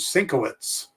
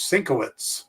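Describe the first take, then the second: First: The name is said as sin-ko-witz. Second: The name is said as sin-ko-witz.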